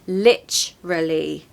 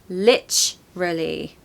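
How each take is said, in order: First: The word has a CH sound after 'li'. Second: The same.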